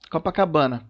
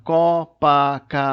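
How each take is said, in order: First: Said in the usual way. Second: "Copacabana" loud, co, pa, ca, ba, na; syllable by syllable. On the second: Shown as a demonstration. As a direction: break "Copacabana" into five separate, drawn-out beats. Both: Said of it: "São cinco sílabas".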